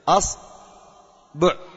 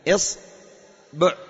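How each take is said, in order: First: The first vowel is a. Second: The first vowel is i. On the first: "نأتي إلى فتحها" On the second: "نأتي إلى كسرها"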